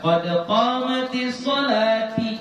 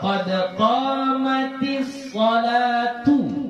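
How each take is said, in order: First: The last word ends with an i vowel. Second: The last word ends with a u vowel. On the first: The speaker calls it wrong. "shalahnya di baris kasrah ... itu salah" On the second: The speaker calls it right. "Yang benar adalah tu"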